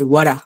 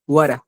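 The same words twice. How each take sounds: No difference in how they are said.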